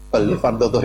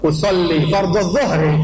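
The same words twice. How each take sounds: First: It is said quietly, under the breath. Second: It is said loudly, out loud.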